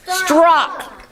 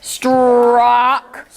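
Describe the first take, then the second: First: Said in the usual way. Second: Strock drawn out slowly; stretched word. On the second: Shown as a demonstration. Teacher stretching a word for pupils. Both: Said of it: "we're gonna stretch these words".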